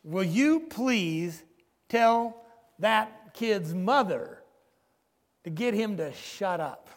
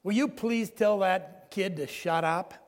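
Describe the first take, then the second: First: Slow, louder, exasperated demand, retold; angry demand. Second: A slow, mildly irritated demand, retold; lightly voiced angry passenger, barely raised. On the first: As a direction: lean on each word like a fed-up passenger, mock anger. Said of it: "The guy gets angry and he says". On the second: Angry passenger to the father on the baby's crying, mild mock irritation. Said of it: "one angry man said".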